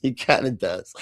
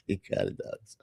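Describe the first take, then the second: First: Said in the usual way. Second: Whispered aside. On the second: Real, not acted. Whispered repeat of agreement.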